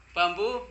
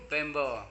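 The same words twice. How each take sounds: First: "Bambu" said with "ah" then "oo"; "Bambu" called out as the word to translate; Indonesian bambu. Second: "bembo" with an "eh" first vowel; "bembo" as the translation, not shouted; English bamboo. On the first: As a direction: project "Bambu" loud and higher. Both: Shown as a demonstration. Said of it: "Mirip kan?".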